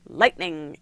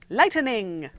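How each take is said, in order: First: The word is said with two syllables. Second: The word is said with three syllables. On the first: The speaker calls it right. "No, it doesn't have an extra syllable. It's just lightning" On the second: The speaker calls it wrong. "they pronounce it with an extra syllable"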